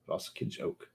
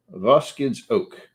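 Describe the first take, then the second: First: Voskage oak whispered under the breath; whispered try. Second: Voskage said slowly as VOS-kidge, stretched; careful pronunciation. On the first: Rehearsing the name to himself in a whisper. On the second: Practising the French name, slow and deliberate. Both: Shown as a demonstration. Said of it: "Vos-, Voskage".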